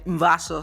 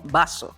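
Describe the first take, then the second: First: The first sound uses lower lip and upper teeth. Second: The first sound is made with both lips. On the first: "no se dice vaso" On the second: "sino vaso"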